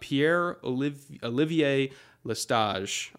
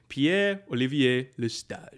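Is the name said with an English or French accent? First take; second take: English; French. First: The name is said with English-style pronunciation. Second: The name is said with full French pronunciation.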